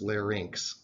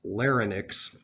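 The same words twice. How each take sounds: First: The ending sounds like the word 'inks'. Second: The ending does not sound like 'inks'. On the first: The speaker calls it right. "The proper pronunciation is larynx" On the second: The speaker calls it wrong. "want to pronounce this larynx, but that is not the proper medical pronunciation"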